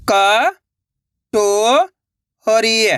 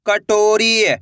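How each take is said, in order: First: कटोरी, stretched slowly, syllables apart. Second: Said in the usual way. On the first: Shown as a demonstration. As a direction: sound out कटोरी, piece by piece. (धीरे-धीरे अक्षर अलग) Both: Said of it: "तो मिलके बन जाएगा".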